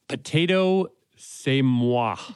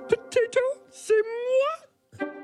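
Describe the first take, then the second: First: It is said in the speaker's normal voice. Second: It is said in a Miss Piggy voice.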